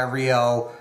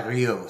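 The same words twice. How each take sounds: First: Rio in plain American pronunciation; the surname Rio with American sounds; Americanized Rio. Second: Ryu with a French R; the surname Ryu said the French way; French pronunciation of Ryu. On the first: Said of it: "my last name has been Americanized". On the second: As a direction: say Ryu slowly, as French Canadian family would. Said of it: "in French it's pronounced Ryu". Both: Shown as a demonstration.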